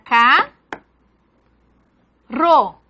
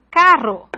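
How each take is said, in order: First: "K, ro" as two syllables with a long pause; "K, ro", each syllable standing alone; syllable division. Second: Said in the usual way. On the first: Shown as a demonstration. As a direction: split carro into "K, ro", first part rising. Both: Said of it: "que se separa".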